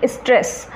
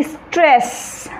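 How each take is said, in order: First: Said in the usual way. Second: stress with a long stretched vowel and ending; drawn-out stress. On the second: Shown as a demonstration. Teacher demonstrating stress to a class, word drawn out. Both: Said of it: "जैसे मैं कहूँगी".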